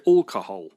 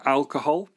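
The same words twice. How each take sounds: First: "alcohol" starting with a rounded "awl", local Somerset style; imitated local Somerset vowel in "alcohol"; local Somerset accent. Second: Said in the usual way. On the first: Shown as a demonstration. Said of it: "they say alcohol". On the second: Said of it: "They don't say alcohol".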